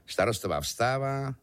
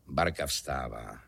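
First: Vyšší hlas. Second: Low, slow echo; hluboká ozvěna. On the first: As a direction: narrate it slightly raised, ending held. Protiklad dvou žen, výš a níž. (první, výše položená půlka ozvěny) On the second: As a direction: drop the pitch and drag out the echo. Ozvěna předchozí věty hlubším hlasem. (hluboká, pomalá komická ozvěna) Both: A narrator's reading.

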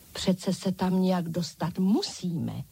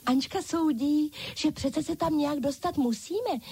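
First: Said in the usual way. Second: High-pitched chorus of dolls; dolls crying out. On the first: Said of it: "soudila Ančka". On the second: A narrator's reading. Other dolls relay their leader's judgement, high-pitched exclaiming. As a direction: echo the leader in a high doll voice. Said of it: "zvolali všechny ostatní panenky".

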